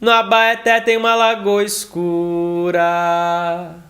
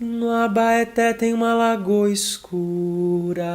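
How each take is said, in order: First: The voice sounds forward, sharp and metallic. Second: The voice sounds soft, back and velvety. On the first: "um timbre mais metalizado" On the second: "um timbre mais aveludado"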